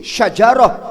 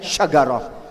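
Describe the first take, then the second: First: The middle consonant is a j sound. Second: The middle consonant is a hard g sound. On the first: This is the standard Arabic form. "jim itu diganti dengan G" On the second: This is how people from Oman say it. "jadinya syagarah"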